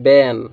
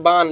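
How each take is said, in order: First: बैन with a front "ae" vowel, lower and falling; correct reading of बैन. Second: बान with a long open "aa"; students' wrong reading of बान. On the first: Shown as a demonstration. Teacher corrects the mistake, बैन with "ae", lower. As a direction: say बैन as English "ban". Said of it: "इसको सही क्या पढ़ते हैं?". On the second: Retold or imitated. Teacher quotes students' mistake, बान with "aa". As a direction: say बान as "baan". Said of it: "लेकिन ये गलत पढ़ते हैं".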